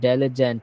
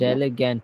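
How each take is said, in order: First: The middle consonant is a j sound. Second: The middle consonant is a hard g sound. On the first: The speaker calls it right. "ডেলিজেন্ট হবে" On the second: The speaker calls it wrong. "ডেলিগ্যান্ট না"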